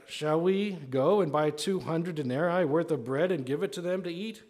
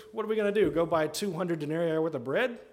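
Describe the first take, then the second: First: Said in the usual way. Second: Sarcastic comeback, pitched up. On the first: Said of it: "it says". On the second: Acted. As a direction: throw it back as an incredulous, mocking question. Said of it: "people that are too sarcastic".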